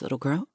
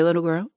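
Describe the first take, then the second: First: Put-on little girl said much softer, with a smile; a soft, fond little girl; gentle correction. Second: Little leaned on with a lifting question; a light, knowing push on the word little; emphasis on little. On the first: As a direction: hush down to a gentle, smiling reproof. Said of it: "he gently corrected with a smile". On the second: Acted. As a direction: stress "little", a teasing rise on "girl". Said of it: "his emphasis on the word little".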